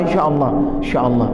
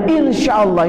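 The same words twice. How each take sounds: First: Mock evasive mumble, quick and dropped; hurried insya Allah, insya Allah with a wave-off feel; fast dismissive repeat. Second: Imitating an empty insya Allah; a hint of a hollow polite yes; mock polite promise. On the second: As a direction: say it like a promise you won't keep. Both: Shown as a demonstration. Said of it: "Kasih begini tangannya dah".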